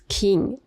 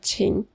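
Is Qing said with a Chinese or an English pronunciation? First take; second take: English; Chinese. First: It is said with an English pronunciation. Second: It is said with a Mandarin Chinese pronunciation. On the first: "según su pronunciación en inglés" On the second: "en chino ese carácter se pronuncia"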